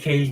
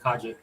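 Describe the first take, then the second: First: The name is said with one syllable. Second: The name is said with two syllables. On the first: The speaker calls it wrong. "I used to say Cage back then" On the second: The speaker calls it right. "let me say it properly"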